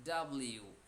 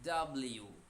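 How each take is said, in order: Both takes have the same delivery.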